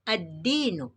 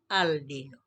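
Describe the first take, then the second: First: The L merges into a doubled D sound. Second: The L is clearly pronounced before the D. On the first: The speaker calls it right. "maka dibaca ad-dinu" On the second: The speaker calls it wrong. "bukan al-dinu"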